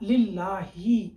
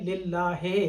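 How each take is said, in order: First: The word ends with an 'i' vowel. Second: The word ends with an 'e' vowel. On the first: The speaker calls it right. "हा के नीचे ज़ेर है" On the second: The speaker calls it wrong. "ये बिल्कुल गलत है"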